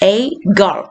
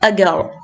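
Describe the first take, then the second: First: The article is said fully and slowly, like 'ay'. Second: The article is reduced to a quick weak 'uh'. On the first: "അങ്ങനെ പതിയെ പറയുവാണെങ്കിൽ" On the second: "Weak form is"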